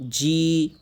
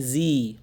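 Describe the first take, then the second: First: G said as a firm, long "jee"; hard-edged G. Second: G said wrongly as a buzzing "zee"; G with leaking air. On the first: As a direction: stop the air, then release "jee". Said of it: "শক্ত থাকবে". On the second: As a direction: let air hiss through G, like "zee". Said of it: "তখন বাতাস বের হয়". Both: Shown as a demonstration.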